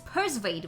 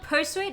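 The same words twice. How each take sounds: First: The word is said with a V sound. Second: The word is said without a V sound. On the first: The speaker calls it right. "with like with V" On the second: The speaker calls it wrong. "It's not persuade"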